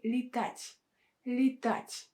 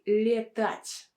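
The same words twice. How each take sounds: First: Летать with first vowel reduced to И; unstressed E as И. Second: Летать mispronounced with a full E in the first syllable; slow летать with an unreduced E; wrong E vowel. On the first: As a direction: model летать as lee-TAT'. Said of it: "With a vowel with a sound И". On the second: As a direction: show летать wrongly as lye-TAT', E kept unreduced. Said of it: "we don't say летать". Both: Shown as a demonstration.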